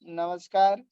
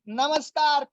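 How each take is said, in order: First: The greeting is said flatly, with low energy. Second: The greeting is said lively, with high energy. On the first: The speaker lacks confidence. The speaker calls it wrong. "क्या वो ऐसे बोलता है ... ऐसे नहीं बोलता।" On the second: The speaker is confident and engaging. The speaker calls it right. "उसका पूरा बॉडी लैंग्वेज बोलता है।"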